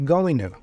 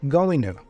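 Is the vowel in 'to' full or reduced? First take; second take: reduced; reduced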